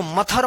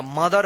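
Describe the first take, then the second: First: मथर with an aspirated t-h sound; mistaken pronunciation. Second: Lower-pitched मदर, th read as 'd'; correct pronunciation. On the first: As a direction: say मथर as 'muh-thar', unvoiced th. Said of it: "इसको मथर मत पढ़िएगा". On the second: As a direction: say मदर as 'muh-dar'. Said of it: "मदर पढ़ेंगे". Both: Shown as a demonstration.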